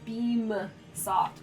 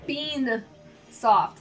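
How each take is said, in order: First: The first word ends with an m sound. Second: The first word ends with an n sound. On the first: The speaker calls it right. "It's beam soft" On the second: The speaker calls it wrong. "it sounds like I say bean soft"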